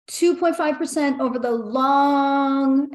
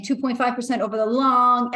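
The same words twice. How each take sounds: First: Slow read, leaning on "long" at the end; stress on long. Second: Said in the usual way. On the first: Retold or imitated. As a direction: drag out "long" slowly as the key word. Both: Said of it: "emphasis on the word long".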